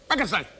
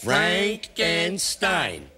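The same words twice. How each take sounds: First: It is said very fast. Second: It is said more slowly.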